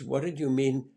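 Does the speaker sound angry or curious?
curious. The question sounds gentle and curious. The speaker genuinely wants to understand. The speaker calls it right. "But you're curious and kind"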